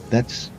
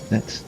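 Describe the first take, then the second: The two takes are said the same way.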